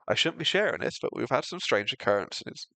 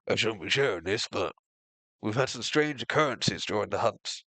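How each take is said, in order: First: It is not said in Grimhold's voice. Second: It is said in Grimhold's character voice.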